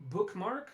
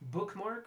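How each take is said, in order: The two takes are said the same way.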